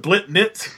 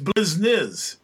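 First: The name is said with T sounds. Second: The name is said with S sounds. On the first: This is how the creatures say their own name. "substitute a T for the S sound" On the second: This is the name as others say it. "their name's Blizniz"

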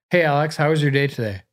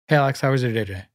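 First: It is said at normal speed. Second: It is said fast with brief pauses.

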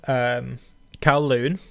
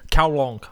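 First: It is said with a plain English ending. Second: It is said with a Cantonese-style ending.

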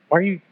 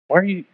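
Both takes have the same delivery.

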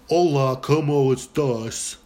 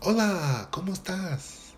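First: It is said flatly, without a smile. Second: It is said smiling, with a musical tune.

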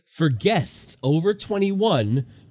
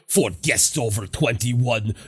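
First: It is read in a natural voice. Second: It is read in a put-on character voice. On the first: "I'm just reading it as written" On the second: "Did freaking Olaf write this? Should we read it like that?"

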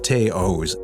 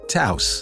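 First: The name does not rhyme with house. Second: The name rhymes with house. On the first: The speaker calls it wrong. "It's not the Taos" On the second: The speaker calls it right. "And it rhymes with house"

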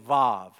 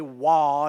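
First: The word begins with a v sound. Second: The word begins with a w sound. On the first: The speaker calls it right. "if you want to sound like a real Hebrew" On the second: The speaker calls it wrong. "you don't say Wah"

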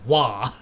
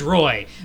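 First: The name is said with French pronunciation. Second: The name is read like English spelling. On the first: "but it's pronounced Wah" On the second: "your name is Roy"

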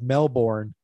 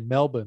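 First: It is said in an American way. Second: It is said in an Australian way. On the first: The speaker calls it wrong. "instead of Melbourne" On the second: The speaker calls it right. "I know to say Melbourne"

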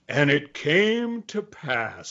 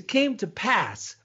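First: It is said in a solemn, ominous tone. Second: It is said in a casual, reassuring tone.

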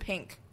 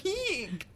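First: The vowel is a plain short 'i' sound. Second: The vowel sounds like 'ee' blended into 'ink'. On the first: This is the usual way to say it. "Instead of" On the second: This is how people from Illinois say it. "It's like you're saying pee and ink at the same time"

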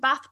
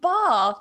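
First: It is said in the speaker's usual accent. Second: It is said in a mimicked local accent. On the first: "can I get a return ticket to Bath" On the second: "let me just change my accent completely"

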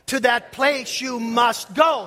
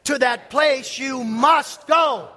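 First: The word go carries the stress. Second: Both must and go carry stress. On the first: "Say it with the emphasis on go" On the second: "Say it with the emphasis on must and go"

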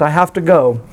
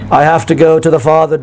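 First: It is said with tearful, desperate emotion. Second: It is said flat and emotionless, British-sounding.

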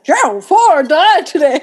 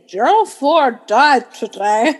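First: It is said with a surprised tone. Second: It is said in a plain, neutral tone.

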